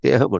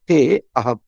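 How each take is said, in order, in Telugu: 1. te నేరుగా ham లోకి వెళ్తుంది, మధ్యలో ఏ అచ్చూ లేదు. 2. 'a' అనే ప్రత్యేక అచ్చు te మరియు ham మధ్య వినిపిస్తుంది. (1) "తేహం తేహం అంటున్నారు" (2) "అక్కడ మధ్యలో అవగ్రహం ఉంది"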